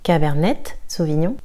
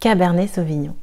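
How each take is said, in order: First: The final T of Cabernet is pronounced. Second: The final T of Cabernet is silent. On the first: The speaker calls it wrong. "dira pas Cabernet Sauvignon" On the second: The speaker calls it right. "le T est silencieux"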